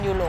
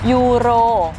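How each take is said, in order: First: The word is said with an L sound. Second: The word is said with an R sound. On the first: The speaker calls it wrong. "Ça finit en L" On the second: The speaker calls it right. "il faut prononcer euro"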